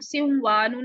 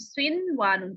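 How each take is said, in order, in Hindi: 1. n की आवाज़ बाद वाले w में मिल जाती है। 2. n की आवाज़ w से पहले साफ़ बोली जाती है। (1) "नहीं पढ़ते" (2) "नून को जाहिर करके पढ़ते"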